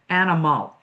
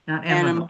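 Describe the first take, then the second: First: Every syllable is fully and carefully pronounced. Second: The vowels are squeezed, as in quick speech. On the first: The speaker calls it right. "when you're doing an over articulating exercise like this" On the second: The speaker calls it wrong. "we don't want animal, you know, in uh, quick speech"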